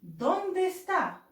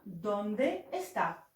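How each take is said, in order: First: ¿Dónde está? drawn out very slowly, starting high on dónde and falling; slow rising demo. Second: Slow plain repeat. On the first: Teacher showing students the question, slow and high. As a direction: stretch dónde high, then let está drop. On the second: Teacher repeating the question for students, slow and level. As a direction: say it again slowly and evenly. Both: Shown as a demonstration. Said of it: "كيف أقول أين هو؟".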